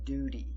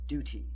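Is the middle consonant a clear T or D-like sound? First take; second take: D-like; clear T. First: The middle consonant is a soft D sound. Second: The middle consonant is a crisp T sound. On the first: "sometimes we get a bit lazy and pronounce it like a D" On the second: "you can pronounce the T like t"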